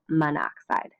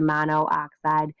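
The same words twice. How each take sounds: First: The o of mono is dropped before oxide. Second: The o of mono is kept before oxide. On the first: The speaker calls it right. "we say" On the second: The speaker calls it wrong. "you wouldn't say"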